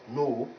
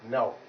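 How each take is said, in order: First: The vowel is one steady, unchanging sound. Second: The vowel glides from one sound into another. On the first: The speaker calls it wrong. "it is not no" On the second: The speaker calls it right. "but now. Because it is this sound plus this"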